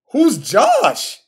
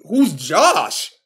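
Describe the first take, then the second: First: Higher, disbelieving Who's Josh with the fall on Josh; repeated in disbelief, pitched up; incredulous. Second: Said in the usual way. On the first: Real, not acted. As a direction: ask it again, stunned and higher.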